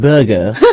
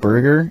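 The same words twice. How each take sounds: First: It is said with a British accent. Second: It is said without a British accent. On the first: "he's from um the U K" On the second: "Like a burger?"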